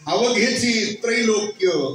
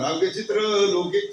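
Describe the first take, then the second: First: The break falls after chi, then trailokya. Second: The break falls after avaghe, then chitra loke. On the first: The speaker calls it right. "कधीच उच्चार होत नाही" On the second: The speaker calls it wrong. "असंच म्हणणार"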